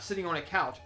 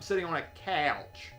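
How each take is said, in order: First: Couch is said in a plain, non-Southern way. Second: Couch is drawn out in a Southern drawl.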